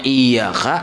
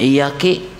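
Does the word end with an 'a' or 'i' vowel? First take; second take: a; i. First: The word ends with an 'a' vowel. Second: The word ends with an 'i' vowel. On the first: The speaker calls it right. "Yang harusnya" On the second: The speaker calls it wrong.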